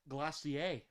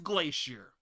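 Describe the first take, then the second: First: It is said with a put-on French accent. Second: It is said with a plain English accent.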